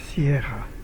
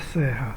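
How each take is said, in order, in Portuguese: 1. É dita com o deslize de 'i': Sierra. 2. É dita sem o deslize de 'i': Serra. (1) "é Sierra" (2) "Não é Serra"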